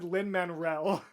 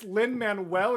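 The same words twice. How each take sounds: First: The name is said with an added R sound. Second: The name is said without any R sound. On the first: The speaker calls it wrong. "You threw like an extra R in there" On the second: The speaker calls it right. "it's Lin Manuel"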